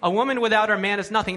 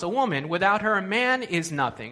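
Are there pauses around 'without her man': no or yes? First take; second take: no; yes. First: It is said straight through without pauses. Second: Pauses come before and after 'without her man'.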